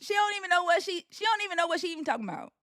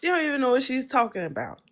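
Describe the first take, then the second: First: High, quick model Southern accent. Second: Quick, careful stab at a Southern accent; attempted Southern accent. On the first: Host correcting the Australian's try, high quick Southern accent. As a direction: show how the Southern accent really goes. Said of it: "just talk like me". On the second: Australian copying the host's line, attempted Southern accent. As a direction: try on a Southern accent, not quite landing it. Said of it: "In, like, a Southern accent?". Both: Shown as a demonstration.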